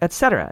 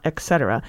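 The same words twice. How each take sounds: First: The word is pronounced the way it is spelled. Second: The word is pronounced differently from its spelling. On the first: The speaker calls it right. "is pronounced as it's spelled" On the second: The speaker calls it wrong. "not et cetera"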